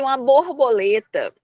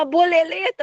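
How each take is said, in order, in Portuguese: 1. A palavra é dita de forma padrão, como 'borboleta'. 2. A palavra é dita de forma infantil, como 'boleleta'. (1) "Você vai fazer igual eu falei" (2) "Mas eu achei tão bonitinha ela falar boleleta"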